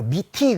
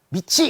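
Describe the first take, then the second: First: The second syllable starts with a t sound. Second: The second syllable starts with a ch sound. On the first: The speaker calls it wrong. "미티 그래도 틀리고" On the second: The speaker calls it right. "미치 이렇게 읽어야 돼요"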